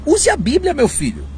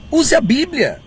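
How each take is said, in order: First: Much higher pleading "use a Bíblia"; urging advice. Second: Higher, emphatic "Use a Bíblia"; firm repeat. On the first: Preacher urging prophets to simply cite the Bible. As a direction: plead with them, voice way up. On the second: Preacher repeating his plea to use the Bible. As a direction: drive the advice home. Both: Shown as a demonstration. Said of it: "Olha, diga o seguinte".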